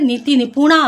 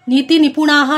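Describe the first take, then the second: First: The last word ends on a plain vowel. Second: The last word ends with an h-like breath. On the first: The speaker calls it right. "नीति निपुणा आहे" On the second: The speaker calls it wrong. "नाही येते"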